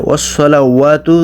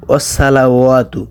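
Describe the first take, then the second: First: ওয়াসসালাওয়াতু with a thick, rounded "so"; correct heavy sad. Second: ওয়াসসালাওয়াতু with a thin "sa" like sin; mistaken thin s. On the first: Teacher showing the word, ওয়াসসালাওয়াতু with heavy "so". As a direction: say ওয়াসসালাওয়াতু as wos-solawatu, full sad. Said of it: "এটা উচ্চারণ হবে ওয়াসসালাওয়াতু". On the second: Teacher copying the common error, ওয়াসসালাওয়াতু with thin "sa". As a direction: say ওয়াসসালাওয়াতু as was-salawatu, light s. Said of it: "অনেকে উচ্চারণ করে". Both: Shown as a demonstration.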